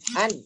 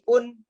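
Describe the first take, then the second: First: The word starts with an 'a' vowel. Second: The word starts with an 'u' vowel. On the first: The speaker calls it right. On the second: The speaker calls it wrong.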